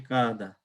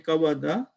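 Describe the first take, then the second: First: A long a replaces the w sound. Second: A w sound is heard between the vowels. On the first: The speaker calls it right. "you replace the waw with the alif and you say kada" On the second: The speaker calls it wrong. "you don't say kawada"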